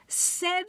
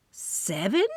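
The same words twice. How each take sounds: First: High, stretched-out "Seven"; drawn-out boast. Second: "Seven?" as a stunned rising question; shocked question. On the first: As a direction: say "Seven" high and long, savoring it. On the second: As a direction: ask "Seven?" in disbelief, rising. Narrator echoes in shock. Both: Acted.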